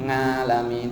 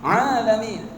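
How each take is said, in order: First: The word begins with an 'ng' sound. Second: The word begins with a plain vowel sound. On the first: The speaker calls it wrong. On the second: The speaker calls it right.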